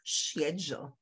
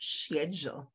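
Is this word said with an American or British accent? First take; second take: British; British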